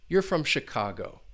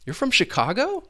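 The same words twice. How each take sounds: First: The pitch falls at the end. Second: The pitch rises at the end. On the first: The speaker already thinks they know the answer. "you hear that falling intonation" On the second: The speaker does not know the answer and is asking. "you really hear that rising intonation"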